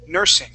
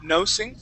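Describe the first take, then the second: First: The first vowel sounds like 'er'. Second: The first vowel sounds like 'oh'. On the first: The speaker calls it right. "we want to say er, nur, nursing" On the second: The speaker calls it wrong. "instead of uh, pronouncing that like no, nosing"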